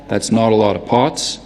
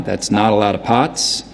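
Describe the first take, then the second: First: Boston "aw" in "not", "lot" and "pots"; rounded Boston vowel on "lot" and "pots"; lip-rounded "aw" vowels, like a Bostonian; Boston accent. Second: New York "ah" in "not", "lot" and "pots"; unrounded New York vowel on "lot" and "pots"; New York accent. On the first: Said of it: "If they say it with an aw". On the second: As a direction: open "ah" vowels, like a New Yorker. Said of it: "If they say it with an ah". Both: Shown as a demonstration.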